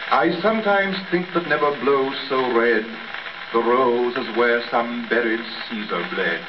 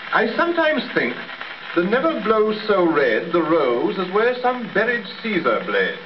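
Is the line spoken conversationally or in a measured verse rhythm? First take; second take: verse rhythm; conversationally. First: It follows a steady verse rhythm without conversational inflections. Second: It uses everyday conversational inflections and natural speech melody. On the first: The speaker calls it right. "let us get rid of all conversational inflections in our verse speaking" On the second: The speaker calls it wrong. "a note that might easily be used in conversation. And then we should speak it thus"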